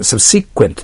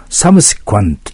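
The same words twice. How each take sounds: First: "サブシクエント" with "シ" stressed and a "kent" ending; pronounced as written. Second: "サブシクエント" with "サブ" up front and a "kwant" ending; recommended pronunciation. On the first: Teacher reading the word as printed, "サブシクエント" with "シ" accented. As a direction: say "サブシクエント" leaning on "シ", ending in an e sound. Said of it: "そのように書いてありますけども". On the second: Teacher recommending a better pronunciation, "サブシクエント" ending in "kwant". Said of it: "という発音した方がいいですね". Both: Shown as a demonstration.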